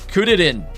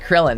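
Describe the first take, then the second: First: The name has three syllables and R sounds. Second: The name has two syllables and an L sound. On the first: The speaker calls it right. "it's it's Kuririn" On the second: The speaker calls it wrong. "it's not Krillin"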